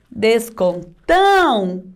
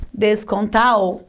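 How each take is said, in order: First: "Descontão" slowly, with a long nasal ão. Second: "Descontal" ending in an oral au; missing tilde. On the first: Teacher modelling the word for pupils, nasal ão. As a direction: stretch the nasal ending of "Descontão". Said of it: "Sonzinho anasalado". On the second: Teacher showing pupils a forgotten tilde, oral au. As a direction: say "Descontal" slowly, no nasality at the end. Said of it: "se esqueceu o tio". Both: Shown as a demonstration.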